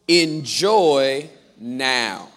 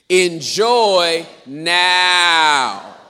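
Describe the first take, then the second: First: It is said at normal volume. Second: It is very loud with a long 'now'.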